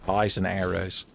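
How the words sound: It is said in a put-on character voice.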